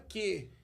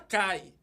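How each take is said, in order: First: The vowel sounds like 'eh'. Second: The vowel sounds like 'eye'. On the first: This is how this man reads Greek, in the Byzantine way. "o homem fala que" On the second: This is not how this man reads Greek. "o homem não fala cai"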